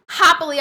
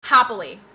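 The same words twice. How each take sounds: First: "Happily" said higher and louder; emphatic repeat. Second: Said in the usual way. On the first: Real, not acted.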